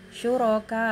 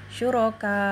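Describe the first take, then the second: No difference in how they are said.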